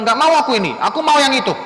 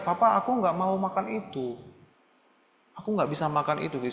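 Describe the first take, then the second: First: Loud, high bratty demand; rude, demanding child. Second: Softly spoken, courteous refusal; polite, gentle child. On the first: Child refusing papa's food, loud and rude. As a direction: refuse loudly and insist on the other. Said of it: "Bukan bilang". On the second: Child declining food from papa, gently and politely. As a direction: say no nicely to your father. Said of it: "kamu bisa bilang baik-baik". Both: Acted.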